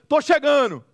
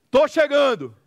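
No difference in how they are said.

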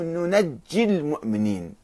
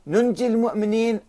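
First: ننجي said nunajji, doubled j; ننجي as "nu-naj-ji"; with shadda. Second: ننجي said nunji, single j; without shadda. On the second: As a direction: say ننجي with a light j. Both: Shown as a demonstration. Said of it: "شدة هنا صارت".

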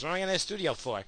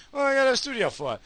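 First: Said in the usual way. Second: High, fast, mocking sing-song. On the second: Shown as a demonstration. Echoing himself about a studio, mocking voice. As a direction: mimic your own question back in a silly voice. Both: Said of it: "repeated in a mock voice".

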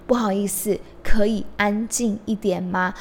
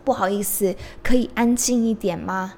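No difference in how they are said.

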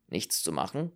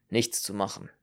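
First: "Nichts zu machen" rising on "machen"; questioning echo. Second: "Nichts zu machen" with a falling end; resigned statement. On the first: Listener questioning the doctor's verdict, "Nichts zu machen" rising at the end. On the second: Doctor reporting the bleeding, "Nichts zu machen" falling, final. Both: Acted.

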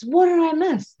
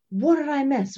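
First: Much higher and louder, pleading to know; insistent repeat; more insistent. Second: Higher, quick, curious ask; first eager ask; eager question. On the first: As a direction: push harder the second time. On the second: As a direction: she hates missing out. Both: Retold or imitated. Midwife eager to hear the news.

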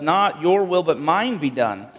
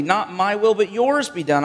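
First: "Not your will, but mine be done" with "mine" pressed, slower on the end; first Adam's prayer. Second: "Not my will, but yours be done" with "yours" lifted high; second Adam's prayer. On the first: Preacher voicing first Adam's selfish prayer, "mine" stressed. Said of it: "his prayer basically was". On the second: Preacher voicing Jesus' obedient prayer, higher and louder. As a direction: stress on "my" and "yours", raised and louder. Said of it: "The second Adam prays rightly". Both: Acted.

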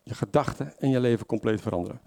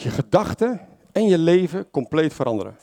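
First: "Je gedachten en je leven compleet veranderen" said again, softer; preacher echoing the key line softly for the congregation; quieter repeat. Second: Preacher stating the key point firmly; emphatic statement. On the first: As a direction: let the repeat sink in, softly. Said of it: "betekent dat je gedachten en je leven compleet veranderen". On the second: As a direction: stress on "gedachten" and "leven", spoken out firmly. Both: Shown as a demonstration.

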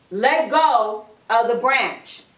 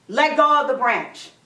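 First: Slow, lower-pitched, measured order; firm repeated command. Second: Said in the usual way. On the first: Acted. God insisting that Jack let go, firm command. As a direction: spell it out slowly and firmly.

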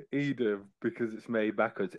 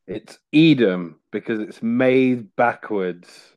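First: "Edam because it's made backwards" repeated much softer, as if explaining; quiet repeat. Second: "Edam because it's made backwards" drawn out slowly as a deadpan joke; slow punchline. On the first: Repeating his pun softly to the host who didn't get it. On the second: Telling his cheese pun slowly to the podcast hosts. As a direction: lay out "Edam" and "backwards" slowly, waiting for the laugh. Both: Shown as a demonstration. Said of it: "Did you not get it?".

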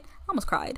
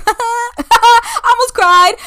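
First: Almost cried tossed off under the breath; throwaway murmur; half-swallowed confession; mumbled aside. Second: High, slow, laughing through the words; giggling I almost cried; laughing admission. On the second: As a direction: laugh at yourself as you admit it. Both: Real, not acted. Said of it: "Hold up".

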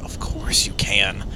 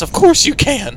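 First: Low, soft, slow agreement; quiet, lowered retold reply; understated assent. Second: High, eager agreement; lifted, enthusiastic retold reply; emphatic assent. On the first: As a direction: say yes gently, drawing it out. Retold answer to mother, first take. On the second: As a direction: insist brightly that it's fine. Retold answer repeated with emphasis.

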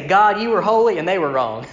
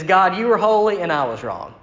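First: "they were wrong" blaming others, holy stressed; preacher mocks the half-right prayer that blames others, stressing "holy"; wrong repentance. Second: "I was wrong" owned sincerely, even and firm; genuine repentance. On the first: The wrong way to pray, said to the congregation, stressing "holy". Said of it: "A lot of times we get close to that". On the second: The right way to pray, shown to the congregation, sincerely. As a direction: confess it plainly, owning the wrong. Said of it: "the pattern of genuine repentance". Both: Shown as a demonstration.

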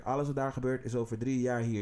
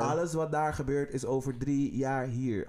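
First: Said in the usual way. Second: "alles" weighted, each word laid down slowly; slow emphatic warning. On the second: Acted. Warning listeners about what comes from America, slow and emphatic. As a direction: drive it home slowly, word by word.

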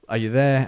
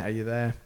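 First: A slightly raised radio call. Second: Much softer, fading repeat; fading call. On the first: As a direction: call out searching for the plane. Control calling the call sign. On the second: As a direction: let the call fade out as if the signal is dropping. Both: Retold or imitated.

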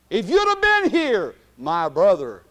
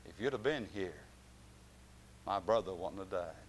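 First: Mary's anguished cry. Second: Said in the usual way. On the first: Acted. Preacher as Mary lamenting to Jesus, loud then falling. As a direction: cry out the grief then drop.

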